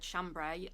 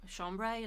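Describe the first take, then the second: First: It is pronounced with an English-style sound. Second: It is pronounced with a French-style sound. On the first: "all my life I've said chambray" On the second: "like the French way"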